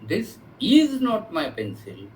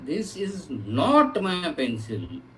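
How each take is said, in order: First: The word 'is' carries the emphasis. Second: The word 'not' carries the emphasis. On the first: It used to be the speaker's pencil but no longer is. "previously it was mine but I have given it to somebody" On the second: It is flatly denied that the pencil is the speaker's. "ये pencil मेरी नहीं है"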